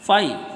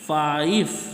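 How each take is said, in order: First: The word ends with a v sound. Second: The word ends with an f sound. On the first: The speaker calls it right. "फ नहीं होगा, ब होगा" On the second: The speaker calls it wrong. "लोग बहुत सारे लोग इसको कैसे बोलते होंगे? ... दिस इज रॉन्ग"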